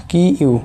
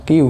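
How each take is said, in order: First: "কি ইউ" said as two separate parts, ki, then iu; separate syllables. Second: "কিউ" run together as one word, kyu; joined sound. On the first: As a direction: keep "কি" and "ইউ" apart. ("কি ইউ" আলাদা আলাদা করে উচ্চারণ) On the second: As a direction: blend ki and iu into "কিউ". ("কিউ" একসাথে যুক্ত করে উচ্চারণ) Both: Shown as a demonstration. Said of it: "এর উচ্চারণটা কী হয়".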